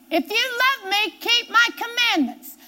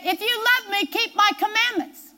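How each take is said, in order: First: Lifted higher, leaning on love and my; emphatic repeat. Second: Said in the usual way. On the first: Shown as a demonstration. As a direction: say it again and drive it home. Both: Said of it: "repeats the same verse".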